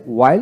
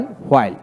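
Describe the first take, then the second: First: ওয়াইল begun with a plain w, no h. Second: হোয়াইল begun with h before the w; sounded H. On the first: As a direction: say ওয়াইল as "wail". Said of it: "আমেরিকানে অ উচ্চারিত". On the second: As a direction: say হোয়াইল as "hwail". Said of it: "ব্রিটিশে হ উচ্চারিত হয়". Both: Shown as a demonstration.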